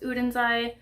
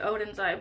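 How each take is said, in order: First: The name begins with an 'oo' vowel. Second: The name begins with an 'oh' vowel. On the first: The speaker calls it right. "but it's Udenzai" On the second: The speaker calls it wrong. "I always want to say Odenzai"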